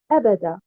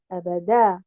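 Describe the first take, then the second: First: The stress is on the first syllable. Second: The stress is on the last syllable. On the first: "en mettant un nabr sur harakat al-hamza" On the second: "en plaçant un nabr sur harakat al-dal à la fin"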